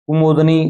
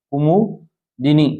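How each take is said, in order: First: Said in the usual way. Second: कुमोदिनी said very slowly, syllable by syllable, as kumudini; कुमोदिनी drawn out slowly with a rise at the end; slow careful spelling-out. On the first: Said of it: "तो यहाँ पर ए". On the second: Shown as a demonstration. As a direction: stretch out कुमोदिनी slowly so students catch each sound. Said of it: "ये स number option आपका right होगा".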